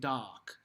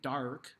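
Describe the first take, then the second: First: The R sound is dropped, almost an H. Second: The R sound is clearly pronounced. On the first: The speaker calls it right. "we sing dock" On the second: The speaker calls it wrong. "We don't sing dark"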